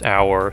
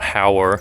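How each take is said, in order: First: The word begins without an h sound. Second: The word begins with an h sound. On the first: The speaker calls it right. "you don't actually pronounce the H" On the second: The speaker calls it wrong. "it's actually not hour"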